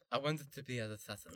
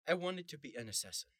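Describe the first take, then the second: First: The s sounds are said with a lisp. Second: The s sounds are said clearly, without a lisp.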